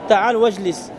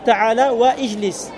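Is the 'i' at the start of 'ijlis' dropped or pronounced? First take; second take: dropped; pronounced. First: The 'i' of ijlis is dropped and linked over. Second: The 'i' of ijlis is pronounced as a separate sound. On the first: The speaker calls it right. "On n'entend pas" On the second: The speaker calls it wrong. "Ce serait faux de dire ta'ala wa ijlis"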